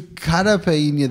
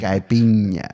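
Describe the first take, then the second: First: The word begins with a 'cara' sound. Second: The word begins with a 'kai' sound. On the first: The speaker calls it wrong. "the way I pronounced it" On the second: The speaker calls it right. "the correct way is kai, like sky"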